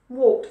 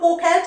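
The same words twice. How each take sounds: First: The ending is a short t sound. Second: The ending is an extra id syllable. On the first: The speaker calls it right. "the ed ending is pronounced like a T" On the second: The speaker calls it wrong. "It's not walked, ... Big mistake"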